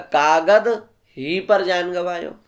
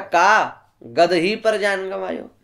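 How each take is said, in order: First: The break falls after 'kaagad'. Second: The break falls after 'ka'.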